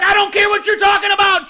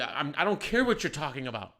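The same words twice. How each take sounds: First: Full-volume, high-pitched dismissive yell; retold furious shout. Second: Said in the usual way. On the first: Boss shutting down a screaming employee, furious shout. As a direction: re-enact shouting someone down. Retells yelling at employee to stop.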